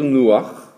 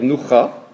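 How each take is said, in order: First: The 'a' vowel comes before the final consonant. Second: The 'a' vowel comes after the final consonant. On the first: The speaker calls it right. "on va dire nouach" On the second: The speaker calls it wrong. "On ne va pas dire noucha"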